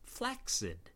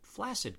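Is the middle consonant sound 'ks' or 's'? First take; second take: ks; s. First: The middle is pronounced with a ks sound. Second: The middle is pronounced with an s sound. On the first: The speaker calls it right. "continues to be pronounced correctly as flaccid" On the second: The speaker calls it wrong. "Where did flaccid come from then?"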